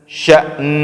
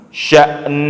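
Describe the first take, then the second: The two takes are said the same way.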